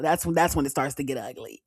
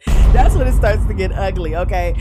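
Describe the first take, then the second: First: Said in the usual way. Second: Loud repeat through laughter; laughing loudly. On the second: Real, not acted. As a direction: burst out laughing and say it much louder.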